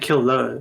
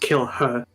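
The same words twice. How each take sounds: First: The h is dropped, sounding like killer. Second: The h in her is clearly pronounced. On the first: The speaker calls it wrong. "you're saying kill her" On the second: The speaker calls it right. "but it's kill her"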